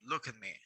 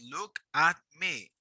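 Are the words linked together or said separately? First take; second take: linked; separately. First: The words are joined smoothly into one unit. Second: The words are said separately, without linking. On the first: The speaker calls it right. "No, look at me" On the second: The speaker calls it wrong. "We don't say look at me"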